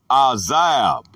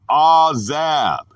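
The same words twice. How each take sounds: First: Said in the usual way. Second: Azab said slowly, syllable by syllable; careful slow azab for the class; slow pronunciation. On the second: Shown as a demonstration. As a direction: spell out azab, a-zab, slow and clear. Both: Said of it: "pronounced azab".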